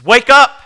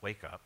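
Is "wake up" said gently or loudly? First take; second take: loudly; gently. First: It is said loudly and urgently. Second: It is said softly and gently. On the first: It is an urgent call to act now. The speaker calls it right. "It's supposed to be jarring" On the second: It is a calm, unhurried prompt. The speaker calls it wrong. "It's not wake up"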